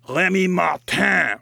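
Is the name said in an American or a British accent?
British. It is said in a British accent.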